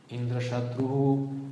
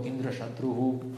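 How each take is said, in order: First: The pitch rises on the word. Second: The pitch stays level on the word. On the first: The speaker calls it right. "сделать тон на повышение" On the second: The speaker calls it wrong. "ты сделал его Индра-шатругу ровно"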